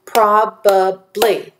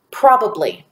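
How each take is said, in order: First: "Probably" slowly in three beats, prob, a, bly; split into syllables. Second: Said in the usual way. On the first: Shown as a demonstration. Teacher counting syllables for students, "Probably" slowly split in three. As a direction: say "Probably" one syllable at a time. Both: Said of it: "There are three syllables in the word probably".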